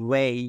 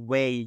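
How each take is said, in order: The two takes are said the same way.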